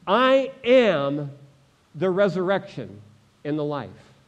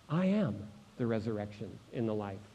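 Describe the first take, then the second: First: Emphatic proclamation. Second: Low, soft and measured; hushed repetition. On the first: Preacher voices Jesus answering Martha, emphatic proclamation. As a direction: declare it firmly, easing down by the end. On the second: Preacher repeats Jesus' answer to the congregation, hushed. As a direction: drop right down and let it sink in. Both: Acted.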